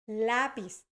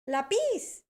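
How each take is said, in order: First: The stress is on the first syllable. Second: The stress is on the second syllable. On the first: The speaker calls it right. "si ustedes se fijan en la entonación, decimos lápiz" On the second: The speaker calls it wrong. "mi estudiante estaba pronunciándolo como lápiz"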